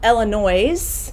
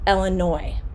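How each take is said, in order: First: The final S sound is pronounced. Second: The final S sound is silent. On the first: The speaker calls it wrong. "It is not" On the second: The speaker calls it right. "we do not pronounce it"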